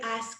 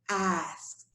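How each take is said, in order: First: The word does not end with a T sound. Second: The word ends with a short T sound. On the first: The speaker calls it wrong. "That would be incorrect" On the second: The speaker calls it right. "Like as if it has a little T at the end"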